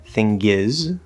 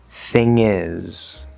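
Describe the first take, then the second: First: A hard G is added before the vowel. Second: The NG links straight into the vowel, no G. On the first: The speaker calls it wrong. "But I'm not saying" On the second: The speaker calls it right. "we don't say the G"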